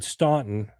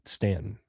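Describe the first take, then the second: First: The name is said as it looks written. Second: The name is said the local Southern way. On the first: The speaker is an outsider from the North. "which is what it looks like" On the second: The speaker is a Southern local. "So the South, they pronounce it"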